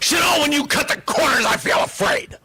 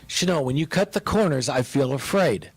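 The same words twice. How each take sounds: First: It is said in a harsh, accusing tone. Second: It is said in a gentle, heartfelt tone. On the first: The speaker is attacking the listener. The speaker calls it wrong. "She didn't say" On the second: The speaker is sharing a feeling from the heart. The speaker calls it right. "she said it like, like she said it"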